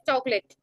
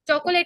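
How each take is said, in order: First: It is said with two syllables, choc-late. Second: It is said with three syllables, cho-co-late. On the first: The speaker calls it right. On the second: The speaker calls it wrong. "चॉकोलेट नहीं बोलते हम"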